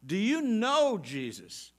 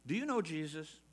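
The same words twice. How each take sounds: First: Slow and louder, leaning hard on know; stress on know. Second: Said in the usual way. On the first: Shown as a demonstration. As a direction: press the word know slowly and loud. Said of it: "I'm not just talking about do you know about Jesus". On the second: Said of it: "He, he says his sheep know him".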